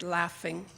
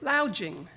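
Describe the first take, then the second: First: Said in the usual way. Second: Laughing said as LOUNGE-ing, like lounging; laughing turned into LOUNGE-ing; laughing misread as lounging. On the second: Shown as a demonstration. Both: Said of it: "pronounced it lounging".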